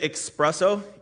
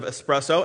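First: The word begins with an 'ex' sound. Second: The word begins with an 'es' sound. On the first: The speaker calls it wrong. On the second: The speaker calls it right. "instead of espresso"

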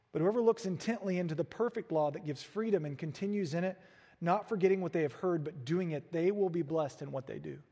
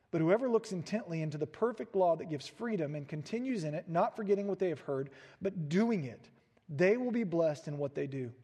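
The two takes are said the same way.

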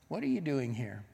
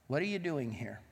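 Both takes have the same delivery.

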